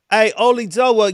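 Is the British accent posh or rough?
rough. It is said in a rough British accent. The speaker calls it right. "He's more trash"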